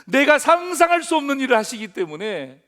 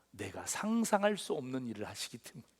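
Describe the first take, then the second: First: Repeated louder and higher for emphasis; emphatic loud restatement from the pulpit. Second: Quiet. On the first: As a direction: say it again, much louder, driving it home. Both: Shown as a demonstration. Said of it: "예?".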